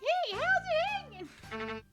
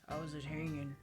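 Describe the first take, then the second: First: It is said in a funny put-on voice. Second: It is said in a plain, normal voice.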